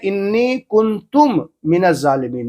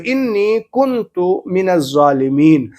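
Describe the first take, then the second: First: The second word ends with an m sound. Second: The second word ends in a u vowel. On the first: The speaker calls it wrong. "इन्नी कुंतुम मिनज़ ज़ालिमीन नहीं" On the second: The speaker calls it right. "कुंतु ते के ऊपर पेश है"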